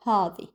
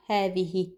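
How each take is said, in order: First: "هذه" shortened to a heavy "haw-dhi"; Gulf pronunciation. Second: Said in the usual way. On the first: Shown as a demonstration. Teacher showing the Gulf feminine form, heavy and shortened. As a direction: drop the final "hi" of "هذه", darken the first vowel. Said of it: "is used as هذه". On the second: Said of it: "not هذه".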